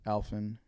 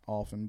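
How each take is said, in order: First: Alphin with a short A, AL-fin; first vowel of Alphin as in "cat"; others' pronunciation. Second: Alphin said as AWL-fin; rounded AW in the first syllable of Alphin; pronunciation grown up with. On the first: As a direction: say Alphin starting like the name Al. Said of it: "some people that pronounce it". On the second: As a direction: open Alphin with the vowel of "all". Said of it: "I've grown up pronouncing it". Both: Shown as a demonstration.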